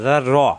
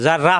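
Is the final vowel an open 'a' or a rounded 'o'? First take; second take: rounded o; open a. First: The final syllable ends in a rounded 'o'. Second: The final syllable ends in an open 'a'. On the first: The speaker calls it right. "রয়ে জবর আসলে রা হয় না, রই থাকে" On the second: The speaker calls it wrong. "কিন্তু জার রা হবে না"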